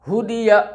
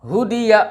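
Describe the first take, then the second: Both takes have the same delivery.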